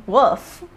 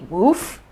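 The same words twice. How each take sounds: First: 'woof' with a short vowel as in wool; contrasting pronunciation. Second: 'woof' with a long oo as in food; roommate's pronunciation. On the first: Quoting the roommate's other option, short-vowel 'woof'. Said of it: "Do they say woof?" Or woof". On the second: Roommate teasing about roof, long-oo 'woof'. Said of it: "and she would go". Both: Retold or imitated.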